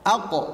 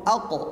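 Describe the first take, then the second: Both takes have the same delivery.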